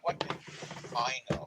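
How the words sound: The stress falls on the word I. The question is about personal knowledge. The speaker calls it right. "put the emphasis ... on the I part"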